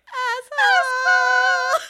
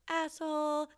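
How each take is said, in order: First: It is said at a high pitch. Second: It is said at a low pitch.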